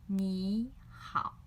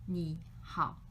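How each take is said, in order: First: 你好 with 你 rising as second tone, loud and clear. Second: 你好 with 你 held too low, a weird low dip; half third tone 你好. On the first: Teacher showing students the easy sandhi 你好, loud and clear. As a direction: lift 你 up then dip into 好. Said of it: "It sounds loud and, uh, clear". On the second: Teacher demonstrating the awkward low half-tone 你好 for students. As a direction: let 你 sink low and stay there. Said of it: "too low and a, a little bit weird". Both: Shown as a demonstration.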